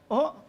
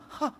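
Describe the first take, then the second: First: It is said as a strong exclamation. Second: It is said in a frightened, shocked way.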